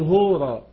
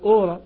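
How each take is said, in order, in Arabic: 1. تبدأ الكلمة بصوت الهاء. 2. تبدأ الكلمة مباشرة بحرف متحرك. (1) "التنفس الهائي ... وصوته كصوت الحرف العربي هاء، مثل هورا" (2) "المفروض نتقال أورا"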